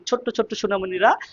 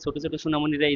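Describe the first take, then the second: First: The 't' consonant is held long and doubled. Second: The 't' consonant is short and single. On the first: It adds emphasis to the word. "জোর দেওয়ার জন্য ... শব্দটাকে একটু দ্বিত করে ফেলি" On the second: It is a plain statement without emphasis. "এই কথাটা যতটা না গুরুত্ব পাই"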